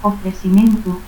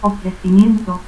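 First: Ofrecimiento as "ofresimentu"; no I before the last E of Ofrecimiento, S for C; dropped I. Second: Said in the usual way. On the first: Shown as a demonstration. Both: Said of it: "ausencia de la I".

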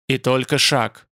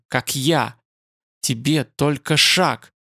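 First: Said in the usual way. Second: Slow, strained and halting; effortful hiss. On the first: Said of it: "согласился Ютланд". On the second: A narrator's reading. Dying spider-man tempts his killer, hissing with effort. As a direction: force it out slowly with a touch of a hiss. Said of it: "прошипел он с усилием".

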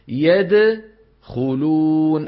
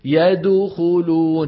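First: Very slow يدخلون, د bounced unrounded, lips rounding only at خ; drawn-out correct يدخلون; correct qalqala. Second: Slow يدخلون with lips rounded on the د, louder; deliberately faulty يدخلون, rounding too early; wrong qalqala demo. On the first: Teacher giving students the right version after the mistake, slowly. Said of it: "أين يكون ضم الشفتين عند الخاء". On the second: Teacher acting out the error for students, louder. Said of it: "شوفوا الغلط". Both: Shown as a demonstration.

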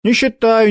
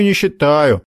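First: Brushing off, high and quick; dismissive. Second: Dismissive repeat. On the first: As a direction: wave it away. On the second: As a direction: drop it dismissively. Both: Acted. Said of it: "отмахнулся Макар".

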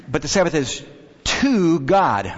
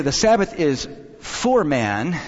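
First: "to" drawn out after a pause; pause, then lean hard on "to"; stress on TO. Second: "for man" set apart, weight on "for"; stress on FOR. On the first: Preacher contrasts man with God, stressing "to". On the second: Preacher draws a distinction about the Sabbath, stressing "for". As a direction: lean on "for" to mark the contrast. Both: Shown as a demonstration. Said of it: "make sure we have that distinction".

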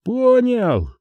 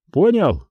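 First: High-pitched, reluctant reply from afar; joyless acknowledgement. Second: Firm, raised-pitch demand for confirmation; demanding check. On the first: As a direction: concede without any joy. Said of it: "безрадостно ответили с той стороны". (безрадостный ответ высоким голосом) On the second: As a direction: press for a yes after a threat. Officer demands confirmation of threat. (требовательный вопрос) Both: A narrator's reading.

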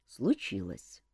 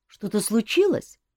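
First: Low, soft sighing answer. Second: Anxious rising question; worried cousin pressing; nervous question. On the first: King confirming bad news to Elmar, low sigh. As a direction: breathe it out heavily. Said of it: "вздохнул тот". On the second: Nervous cousin asks king. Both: A narrator's reading.

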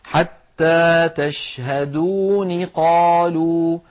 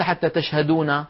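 First: Very slow chanted "حتى تشهدون قالوا", n with kasra; وصل بنون مكسورة. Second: "حتى تشهدون" with final n opened to na; نطق خاطئ بفتح النون. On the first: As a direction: link "تشهدون" to "قالوا" as tash-haduuni qaaluu. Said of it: "ولو وصلناها نقول". (وصل «تشهدون قالوا» بكسر النون) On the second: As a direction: end "تشهدون" as tash-haduuna, the mistaken fatha. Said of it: "وليس". («تشهدون» بنون مفتوحة خطأً) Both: Shown as a demonstration.

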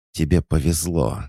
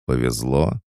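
First: "Тебе повезло" with a higher start and a firm fall; falling statement. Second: "Повезло?" rising steeply at the end; echo question. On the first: Statement then echoed as a question. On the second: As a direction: throw "Повезло?" back as a question. Echoes the words as a question. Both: A narrator's reading.

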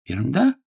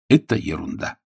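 First: "Ерунда" rising higher into a question; echo question. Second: "ерунда" falling, matter-of-fact; falling dismissal. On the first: John echoes Agnes's rejection, questioning with a rise. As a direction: lift "Ерунда" upward as a query. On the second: Agnes waves away John's proposal, dismissing it with a fall. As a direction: state "ерунда" with a falling close. Dismissal, then questioned back. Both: A narrator's reading.

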